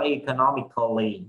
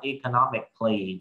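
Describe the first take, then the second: First: A full vowel sounds between the c and l. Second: The c and l join with no vowel. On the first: The speaker calls it wrong. "chứ không có economically" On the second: The speaker calls it right. "các anh chị sẽ đọc economically"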